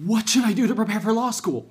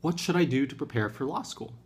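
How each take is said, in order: First: It is asked in a worried, anxious tone. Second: It is asked in a calm, neutral tone.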